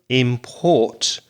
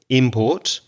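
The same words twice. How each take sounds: First: The stress is on the second syllable. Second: The stress is on the first syllable. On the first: It is used as a verb. "the verb import is stressed on the second syllable" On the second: It is used as a noun. "the noun, again, has the stress on the first syllable"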